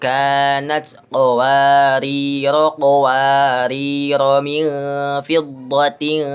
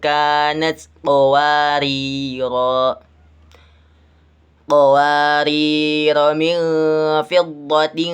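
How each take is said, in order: First: The first qawarira runs straight into the next. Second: The voice stops after the first qawarira. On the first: The reading joins the first word to the next. "diwasolkan atau disambung" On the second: The reading stops at the first word. "diwakafkan pada lafaz qawariru yang pertama"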